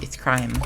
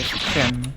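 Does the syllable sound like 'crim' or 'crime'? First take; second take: crime; crim. First: The syllable is said like the word 'crime'. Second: The syllable is said as 'crim'. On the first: The speaker calls it right. "It's crime, mew" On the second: The speaker calls it wrong. "crim, mew, but it's not"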